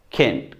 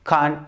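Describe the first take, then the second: First: "केंट" flat e; American "can't". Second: "कांट" broad a; British "can't". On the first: Teacher demos American "केंट" again. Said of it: "American बोलेगा डेंस". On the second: Teacher demos British "कांट" again. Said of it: "British बोलेगा डांस". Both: Shown as a demonstration.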